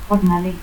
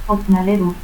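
First: Said in the usual way. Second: Jornalero as "hotnaleru"; faint J, stop for first R in Jornalero; aspirated J. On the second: Shown as a demonstration. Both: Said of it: "el fonema X se aspira".

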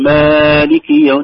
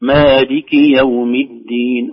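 First: "مالك" with the a stretched too long; loud, slow, drag out the first vowel of "مالك"; over-lengthened madd. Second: "مالك" with its a held only normal length; slow recitation, no extra stretch on "مالك"; natural madd. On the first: Retold or imitated. Teacher imitating some reciters, overlong a in "مالك". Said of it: "يمد زيادة عن طبيعي". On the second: Shown as a demonstration. Teacher correcting the stretch, natural-length a in "مالك". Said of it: "هي مد طبيعي وليس فيها زيادة".

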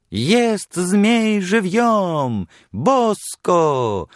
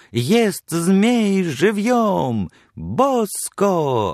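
First: High, slow, booming fairground call; loud carnival barker. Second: Slow, high barker's cry stretching each word; loud carnival barker. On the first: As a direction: drum up a crowd for the sideshow. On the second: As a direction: shout to lure people into the booth. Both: Retold or imitated. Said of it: "подражая крику ярмарочного крикуна".

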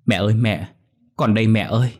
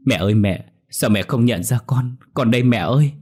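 First: Put-on a girl's mild desperate cry of mother. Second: Sobbing daughter begging mother to recognise her; wailing cry. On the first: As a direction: cry out to mother, moderately raised. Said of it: "miệng còn không ngừng la lên". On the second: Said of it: "khóc lóc ỉ ôi rồi gào lên". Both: A narrator's reading.

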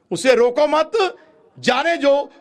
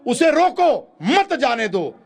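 First: "रोको मत" as one high, loud phrase, pause, then "जाने दो"; group मत with रोको, break, then let "जाने दो" go; pause after मत. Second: High, slow "उसे रोको", break, then forceful "मत जाने दो"; group मत with जाने दो, punching मत after the break; pause after रोको. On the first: ("रोको मत" जोड़कर, रुककर "जाने दो") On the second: ("उसे रोको" पर रुककर, ज़ोर से "मत जाने दो") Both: Shown as a demonstration. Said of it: "इसके दो विपरीत अर्थ हैं".

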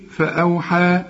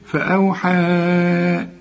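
First: فأوحى with a shorter final aa; stopping form. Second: فأوحى with the final aa held very long; four-count madd. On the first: Teacher shows pausing on the word, stopping form. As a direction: end فأوحى on a brief long vowel, without extra stretching. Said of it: "إذا وقفت تقول إيه؟". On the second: Teacher shows joining to the next word, four-count madd. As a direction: stretch the end of فأوحى on a level note. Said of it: "هتمد أربع حركات". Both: Shown as a demonstration.

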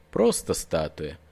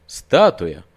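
First: Slow, low, self-calming; reassured. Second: Loud startled question; alarmed. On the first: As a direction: settle your own nerves. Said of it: "Это сразу его ободрило". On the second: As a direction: doubt jumps back in. Same word, alarmed doubt. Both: Acted.

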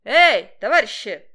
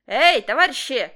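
First: Louder hailing shout; loud call from afar. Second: Loud call from the gate; loud hailing shout. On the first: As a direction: yell to get their attention. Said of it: "кричал он". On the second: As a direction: call out across the fence. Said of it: "послышалось вдруг". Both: A narrator's reading.

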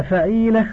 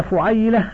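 First: فعيلة with an "a" after the f, fa-ee-la; fatha on the fa. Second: فعيلة with a "u" after the f, fu-ay-la; damma on the fa. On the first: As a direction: say فعيلة as fa'īla, long ee in the middle. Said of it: "المفتوحة الفاء". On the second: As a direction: say فعيلة as fu'ayla, with an ay glide. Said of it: "المضمومة الفاء". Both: Shown as a demonstration.

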